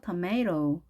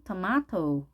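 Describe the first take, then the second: First: Tomato slowly as tuh-MAY-ro; tapped r sound. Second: Tomato slowly as tuh-MAH-toh; ah vowel, clear t. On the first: Teacher shows first option, tomato as tuh-MAY-ro. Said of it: "알 발음도 하죠". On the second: Teacher shows second option, tomato as tuh-MAH-toh. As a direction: say tomato with AH and a crisp T. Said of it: "혹은". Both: Shown as a demonstration.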